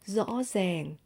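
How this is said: Northern accent, the r sounds like z. "in Northern accent"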